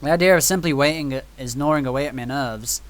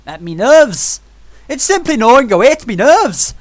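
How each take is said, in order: First: Said in the usual way. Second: Loud, high mock-Irish outburst; botched part-Irish accent. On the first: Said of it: "I don't know what that accent was". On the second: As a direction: ham up a bad Irish accent. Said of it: "what that accent was. It was, like, part Irish".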